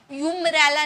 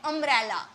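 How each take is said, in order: First: "यूम्ब्रेला" starting with a "yoo" sound; spelling mispronunciation. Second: "अम्ब्रेला" starting on a short "uh" vowel; correct pronunciation. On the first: Teacher showing students the wrong reading, "यूम्ब्रेला" with a yoo onset. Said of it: "यूम्ब्रेला नहीं बोलते". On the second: Teacher giving students the spoken form, "अम्ब्रेला" with an uh onset. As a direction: open "अम्ब्रेला" with "uh", no y glide. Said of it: "हम क्या बोलते हैं?". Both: Shown as a demonstration.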